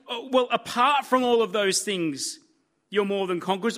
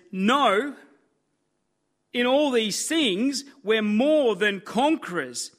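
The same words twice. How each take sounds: First: Light dismissive "apart" with a shrug in the voice, not what God says; mock hedging. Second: "all" drawn out and rising, "more" landing firm and final; emphatic. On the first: Preacher mocking the wrong version of God's promise. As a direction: toss off "Oh, well, apart from" like a grudging caveat. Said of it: "He doesn't say". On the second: Acted. Preacher quoting God to doubters, stressing "all" emphatically. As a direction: lean slowly on "all" in "in all these things" and drop onto "more". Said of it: "He emphatically says".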